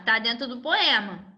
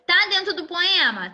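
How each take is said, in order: First: "Tá dentro do poema." stated with a falling tune; teacher answers her own question with a settled fall; answering tune. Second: "Tá dentro do poema?" asked as a question, pitch rising; teacher checks the class with a questioning tune; asking tune. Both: Shown as a demonstration.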